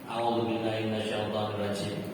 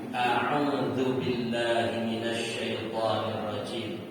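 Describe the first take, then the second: First: The Arabic sounds are articulated loosely and casually. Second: The Arabic sounds are articulated carefully and precisely. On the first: This is how it is commonly heard in everyday recitation. The speaker calls it wrong. "kalau saya sering dengar begini" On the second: This is how a trained reciter says it. The speaker calls it right. "Ini efek saya sudah pernah belajar, jadi agak beda"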